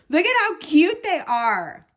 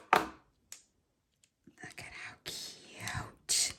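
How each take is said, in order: First: High, loud, quick squeal of adoration; excited gushing. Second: Slow, drawn-out whisper; awed whisper. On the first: Crafter showing viewers cute crochet hooks, high excited gushing. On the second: Crafter showing viewers cute crochet hooks, slow awed whisper. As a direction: whisper it slowly in adoring awe. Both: Real, not acted.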